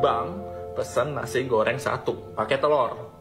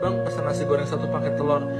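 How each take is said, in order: First: The order is spoken loudly and clearly. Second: The order is spoken quietly and unclearly. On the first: This is how the order should be given. The speaker calls it right. "intonasi harus benar juga" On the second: This is how someone else gave the order. The speaker calls it wrong. "Nggak jelas, nggak bakal ngerti"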